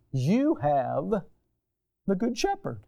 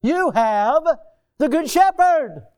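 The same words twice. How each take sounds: First: Said in the usual way. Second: Much higher and louder, driving it home; a preacher swells into a loud proclamation to the church; emphatic proclamation. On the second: Acted. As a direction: preach it out with full force.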